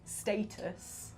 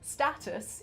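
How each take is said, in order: First: It is said with a non-American pronunciation. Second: It is said with an American pronunciation.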